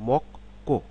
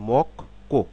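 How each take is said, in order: No difference in how they are said.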